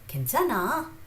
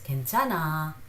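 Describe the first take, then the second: First: The pitch rises at the end. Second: The pitch falls at the end. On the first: It asks whether someone is okay. "they simply raise the tone at the end of the sentence" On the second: It states that the speaker is okay. "that means I am okay"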